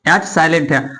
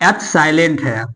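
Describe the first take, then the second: No difference in how they are said.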